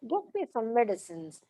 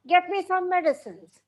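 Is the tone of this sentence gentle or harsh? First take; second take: gentle; harsh. First: It is said in a gentle, requesting tone. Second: It is said in a harsh, commanding tone. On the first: It is a request. "It's a request" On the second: It is an order. "If my tone is harsh, it becomes a command"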